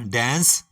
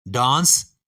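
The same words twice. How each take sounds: First: डांस with a flat "ae", as in dæns; flat American vowel in डांस; American dance. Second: डांस with a broad "aa"; British dance. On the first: Teacher giving the American form of dance, flat "ae". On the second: Teacher giving the British form of dance, broad "aa". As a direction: open British vowel in डांस. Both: Shown as a demonstration. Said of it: "इसी तरह".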